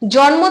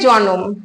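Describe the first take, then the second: First: The n and m are joined with no vowel. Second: A short o vowel separates the n and m. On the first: "নয়ের সঙ্গে কিন্তু কোনো স্বরধ্বনি আসছে না" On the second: "নয়ের সঙ্গে আমরা দেখতে পাচ্ছি অ স্বরধ্বনি আসছে"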